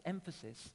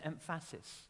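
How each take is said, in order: First: Said in the usual way. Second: Second "emphasis" said em-FASS-is; shifted word stress. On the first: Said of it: "I say emphasis and emphasis". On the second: Shown as a demonstration. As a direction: move the stress in the last "emphasis" to the middle syllable, em-FASS-is. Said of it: "but it sounds so different".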